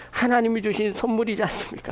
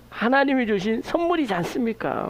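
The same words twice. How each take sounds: First: 하나님이 pushed up front, question falling; stress on 하나님이. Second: 선물이지 lifted and held, like a point driven home; stress on 선물이지. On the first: (하나님이에 강세) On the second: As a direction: weigh the word 선물이지 for the congregation. (선물이지에 강세) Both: Shown as a demonstration.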